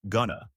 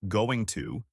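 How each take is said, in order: First: The words are reduced to two quick syllables. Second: Both words are said fully. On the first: "native speakers often say gonna" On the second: "instead of saying going to"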